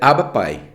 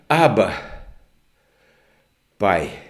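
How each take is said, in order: First: The two words run together without a pause. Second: There is a pause between the two words. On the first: The speaker calls it wrong. "Se tivesse um hífen, seria Abba pai" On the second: The speaker calls it right. "E o que significa vírgula? Pausa"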